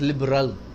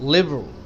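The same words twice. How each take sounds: First: The middle syllable is fully pronounced. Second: The middle syllable is dropped. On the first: The speaker calls it wrong. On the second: The speaker calls it right.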